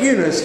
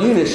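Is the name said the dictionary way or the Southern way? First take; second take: Southern; dictionary. First: The name is said the Southern regional way. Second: The name follows its dictionary syllable marks. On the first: "Southern Belles that pronounce that Eunice" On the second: "if you read the hyphens and everything else, you pronounce that word Eunice"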